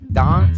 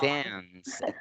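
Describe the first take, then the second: First: It is said with a British accent. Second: It is said with an American accent.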